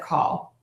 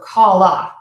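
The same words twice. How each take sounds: First: The word ends cleanly on the L. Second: An extra vowel follows the final L. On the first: The speaker calls it right. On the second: The speaker calls it wrong.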